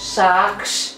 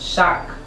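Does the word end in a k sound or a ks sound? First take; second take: ks; k. First: The word ends with a k and s sound. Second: The word ends with only a k sound. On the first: The speaker calls it wrong. "অনেকে উচ্চারণ করতে গেলে বলবেন যে সাক্স" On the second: The speaker calls it right. "উচ্চারণটা হবে শাক"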